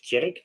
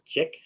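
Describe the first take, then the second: First: The name is said with an r sound. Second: The name is said without an r sound. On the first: The speaker calls it right. "My name is Tjerk" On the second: The speaker calls it wrong. "not Czech"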